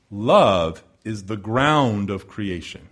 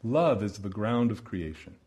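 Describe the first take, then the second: First: Slow quote. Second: A hushed, reflective repeat; soft echo. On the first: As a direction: say it slowly with weight on love. One author put it simply this way. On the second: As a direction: repeat the quote much softer, letting it sink in. Quote repeated to let it sink in. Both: Acted.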